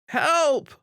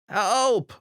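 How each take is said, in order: First: It is screamed loudly. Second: It is a bit louder.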